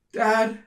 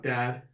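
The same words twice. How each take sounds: First: High, loud call for Dad. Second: Said in the usual way. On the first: Acted. Daughter runs into the field seeking her father, calling out. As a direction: call across a battlefield. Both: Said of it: "She starts calling out".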